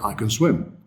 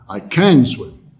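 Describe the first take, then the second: First: The word 'can' is unstressed and weak. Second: The word 'can' is stressed and full. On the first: The speaker can swim. The speaker calls it right. "But you should say" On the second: It sounds like the speaker cannot swim. The speaker calls it wrong. "was it a negative because you stressed it?"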